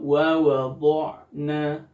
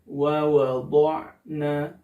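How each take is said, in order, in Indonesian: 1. Bibir membulat pada bunyi dhad. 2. Bibir membulat pada bunyi dhad.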